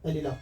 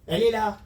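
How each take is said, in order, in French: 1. C'est dit sur un ton doux, amical. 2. C'est dit sur un ton dur, agressif. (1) "Au lieu de" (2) "ce ton de voix, il est déjà agressif"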